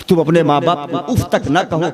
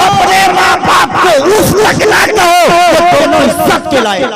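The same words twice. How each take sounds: First: Said in the usual way. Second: अपने माँ बाप को उफ़ तक ना कहो shouted high and loud, falling on तक; preaching shout. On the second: Shown as a demonstration. Preacher proclaiming the verse to the congregation, shouted. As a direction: cry out the command to the crowd. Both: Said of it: "Quran कह रहा है".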